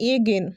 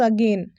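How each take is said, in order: First: The word starts with an 'eh' vowel. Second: The word starts with a short 'uh' vowel. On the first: The speaker calls it wrong. "It's not एगेन" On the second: The speaker calls it right. "It's अगेन"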